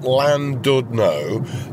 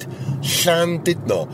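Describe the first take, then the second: First: It is pronounced with anglicized sounds. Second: It is pronounced with Welsh sounds. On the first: "as a lot of people say" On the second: "which is the Welsh pronunciation"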